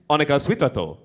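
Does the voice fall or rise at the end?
fall. The pitch falls at the end. It states that the speaker is hungry. "I am hungry"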